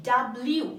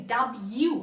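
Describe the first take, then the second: First: "ডাব্লিউ" as dab-liu, with the L; common mispronounced W. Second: "ডাব্লিউ" as dab-yu, without the L; teacher's careful dab-yu for "ডাব্লিউ"; correct W pronunciation. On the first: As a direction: demonstrate the L in "ডাব্লিউ". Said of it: "অনেকে আমরা এটা উচ্চারণ করি". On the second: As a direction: model "ডাব্লিউ" with a y glide for the L. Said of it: "এটার সঠিক উচ্চারণ হচ্ছে". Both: Shown as a demonstration.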